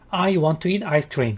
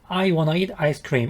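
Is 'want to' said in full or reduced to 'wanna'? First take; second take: full; reduced. First: The words 'want to' are said in full. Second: The words 'want to' blend into 'wanna'.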